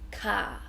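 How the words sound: The final R sound is dropped. "in Australia, we don't really say the R. We just say car"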